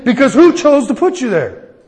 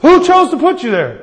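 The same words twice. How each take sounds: First: "who" punched, preaching; stress on who. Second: "Who" hit higher and louder; higher repeat on who. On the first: Pastor presses congregation, "who" stressed. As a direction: lean hard on "who". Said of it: "repeated question to congregation". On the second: Pastor repeats question louder, "Who" stressed. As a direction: push "Who" up harder. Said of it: "repeated question, higher". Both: Real, not acted.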